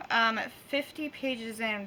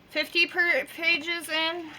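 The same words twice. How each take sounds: First: Careful, slow through tooth pain; fifty pages in, said slowly and softer; with a sore jaw. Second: Talking through tooth pain; words slurred by a sore jaw. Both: Real, not acted. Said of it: "That was hard".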